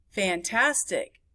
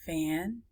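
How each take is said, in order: First: Said in the usual way. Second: Fantastic split into fan, tas, tic; low, soft Fantastic in three separate beats; syllable by syllable. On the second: Shown as a demonstration. Teacher counting syllables, Fantastic broken up. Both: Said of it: "many syllables it is".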